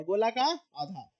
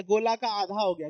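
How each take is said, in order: First: Slow explaining. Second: Said in the usual way. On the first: Shown as a demonstration.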